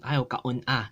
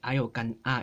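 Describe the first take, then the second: First: The verb is longer, with a glottal break inside. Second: The verb is short, with no internal break. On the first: The speaker calls it wrong. "That's just too many syllables" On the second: The speaker calls it right. "We just want something that's two, two, um, two syllables"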